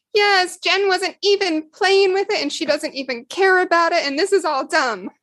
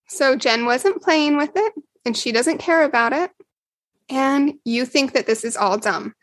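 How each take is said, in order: First: Put-on a sulky kid brushing it all off; child's protest. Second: Said in the usual way. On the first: Betty voiced as small child.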